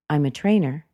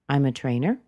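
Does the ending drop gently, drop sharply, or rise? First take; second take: drops gently; rises. First: The pitch falls gently at the end. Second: The pitch rises slightly at the end. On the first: It is a normal, neutral answer. "that's the normal intonation" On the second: It invites the conversation to continue. "It asks that we carry on the conversation. It's light, it's casual"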